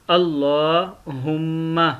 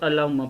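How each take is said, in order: First: अल्लाहुम्मा slowly, with a long held aa; lengthened vowel. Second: अल्लाहुम्मा rushed, with no long vowel; common short misreading. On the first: Teacher showing the correct reading, अल्लाहुम्मा drawn out. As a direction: stretch the aa in अल्लाहुम्मा. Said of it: "इसको थोड़ा सा खींचते हैं". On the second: Teacher imitating common readers, अल्लाहुम्मा said short. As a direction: run through अल्लाहुम्मा without stretching the aa. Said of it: "अक्सर लोग अल्लाहुम्मा पढ़ते हैं". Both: Shown as a demonstration.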